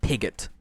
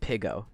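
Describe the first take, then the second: First: The name ends with a t sound. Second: The name ends without a t sound. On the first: The speaker calls it wrong. "not Pigot" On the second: The speaker calls it right. "Pigo's name is pronounced Pigo"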